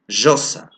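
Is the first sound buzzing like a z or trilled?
buzzing. The first sound buzzes like a z. This marks the speaker as having an Andean accent. "but they say josa"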